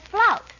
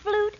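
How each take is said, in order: First: The vowel is an 'ow' sound. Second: The vowel is a plain 'oo' sound. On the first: This is a grand, theatrical pronunciation. The speaker calls it right. "We of the theater pronounce flute as flout" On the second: This is the common, everyday pronunciation. The speaker calls it wrong. "That is the plebeian pronunciation"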